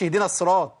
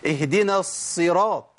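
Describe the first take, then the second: First: اهدنا الصراط with a short single ص; rushed sad mistake. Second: اهدنا الصراط slowly, the ص held double; doubled sad. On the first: Teacher showing what not to say, sad left undoubled. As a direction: hurry through the ص of الصراط without doubling. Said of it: "ما أقولش". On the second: Teacher modelling the verse, slow doubled sad. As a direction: dwell on the ص of الصراط. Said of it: "مش صاد مشددة". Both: Shown as a demonstration.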